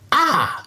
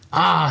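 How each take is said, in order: First: It is said in a put-on character voice. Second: It is said in a plain reading voice.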